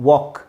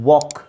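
Both takes have the same delivery.

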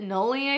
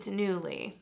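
First: The first syllable sounds like 'null'. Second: The first syllable sounds like 'new'. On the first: The speaker calls it wrong. "I always called it Nully" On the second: The speaker calls it right. "but it's Newly"

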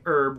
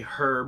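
First: The word starts with a vowel, no H sound. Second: The word starts with a clear H sound. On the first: This is the American way of saying it. "You say herb" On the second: This is the British way of saying it. "we say herb because there's an effing H in it"

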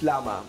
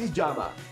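First: The word is pronounced the English way. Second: The word is pronounced the Spanish way. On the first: "In English" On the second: "In Spanish"

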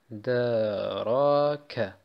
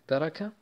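First: The sounds are stretched out and drawn long. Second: The sounds are said short without stretching. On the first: The speaker calls it wrong. "die brauchen ja Zeit, damit die Buchstaben aussprechen" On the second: The speaker calls it right. "bitte nicht, wenn ihr ausspricht, alles mal verlängern"

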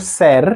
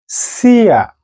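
First: The word ends with an 'er' sound. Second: The word ends with an 'ia' sound. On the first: The speaker calls it wrong. "not ser or ser" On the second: The speaker calls it right. "but sia"

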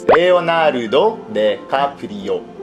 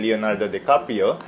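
First: The name is said with Japanese pronunciation. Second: The name is said with English pronunciation. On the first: "In Japan, ... it's Leonardo DiCaprio" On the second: "when we say Leonardo DiCaprio"

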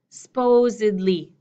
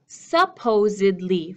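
First: The word is said with three syllables. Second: The word is said with four syllables. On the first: The speaker calls it right. "I have supposedly, three" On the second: The speaker calls it wrong. "instead of supposedly, four"

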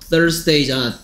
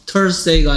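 First: It begins with a th sound between the teeth. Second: It begins with a plain t sound. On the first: The speaker calls it right. "혀를 왜 물겠어? ... TH가 this 중에서 Thursday" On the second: The speaker calls it wrong. "Thursday가 아니고"

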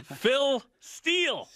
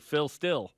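First: The surname is said like the word 'steel'. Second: The surname is said like the word 'still'. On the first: The speaker calls it right. "it's Phil Steele" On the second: The speaker calls it wrong. "because they'd say Phil Still"

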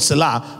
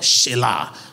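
First: The word begins with an 's' sound. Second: The word begins with an 'sh' sound. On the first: The speaker calls it wrong. "there's no word Selah in Hebrew" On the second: The speaker calls it right. "is the word Shelah"

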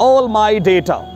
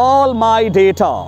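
Both takes have the same delivery.

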